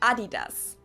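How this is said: It is said the German way.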